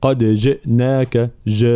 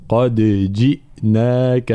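First: جئناك said as ja without the i; wrong kasra. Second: Slow قد with an echoing dal; qalqala on dal. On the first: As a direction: show جئناك with a wrong vowel. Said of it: "لا نقول". (جئناك بلا كسر خطأً) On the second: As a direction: bounce the dal of قد. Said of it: "هكذا". (قد جئناك بقلقلة الدال) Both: Shown as a demonstration.

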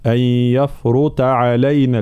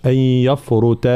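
First: يفرط slower, with a heavy ta. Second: يفرط with a thin ta; wrong thin ta. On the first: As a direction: give the ta in يفرط full weight. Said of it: "لا". (يفرط بتفخيم الطاء) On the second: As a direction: show يفرط mispronounced thin. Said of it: "ما نقولش". (يفرط بترقيق الطاء خطأً) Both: Shown as a demonstration.

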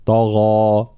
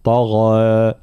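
First: طغى slow, heavy to its end; full heavy alif. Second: طغى with its end thinned toward e; wrong thinned alif. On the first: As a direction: keep طغى heavy all the way through. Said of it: "نفس درجة التفخيم". (طغى مفخمة حتى آخرها) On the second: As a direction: show the error by thinning the ending of طغى. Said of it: "يختمها بنوع من الترقيق". (طغى بترقيق آخرها خطأً) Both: Shown as a demonstration.

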